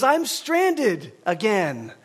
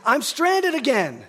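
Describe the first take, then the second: First: Very slow, each word drawn out; stranded stretched out long and slow; echoing catchphrase. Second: Raised-pitch, slow imitation of the wife; imitating the wife's stranded call; wife's repeated complaint. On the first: Shown as a demonstration. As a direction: savor the phrase like a line you can't forget. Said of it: "this echoing phrase that's gonna come back and bite me". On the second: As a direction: quote her plea, a little higher and stretched. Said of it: "she says".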